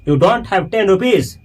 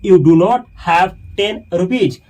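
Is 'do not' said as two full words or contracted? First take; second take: contracted; full. First: It is said with 'do not' contracted. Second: It is said with 'do not' in full.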